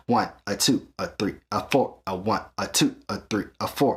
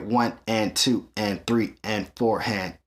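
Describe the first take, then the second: First: "one, a two, a three, a four" with a long beat and a short clipped "a" before each number; swung count. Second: "one and two and three and four" counted evenly and slowly, each "and" the same length; steady straight eighths count. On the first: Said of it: "and if it swings". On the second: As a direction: count it dead even, no swing. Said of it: "This is straight". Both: Shown as a demonstration.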